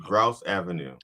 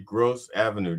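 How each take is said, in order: First: The name rhymes with the word house. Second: The name rhymes with the word dose. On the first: The speaker calls it right. "once I spelled it out" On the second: The speaker calls it wrong. "I was saying it wrong all these years"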